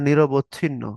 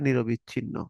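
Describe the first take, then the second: First: Said in the usual way. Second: নিরবিচ্ছিন্ন with an added i after নিরব; wrong form নিরবিচ্ছিন্ন; mispronounced word. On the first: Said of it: "বলার সময় বলে ফেলে". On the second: Shown as a demonstration. Teacher shows the common mispronunciation নিরবিচ্ছিন্ন. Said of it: "বলে ফেলে নিরবিচ্ছিন্ন".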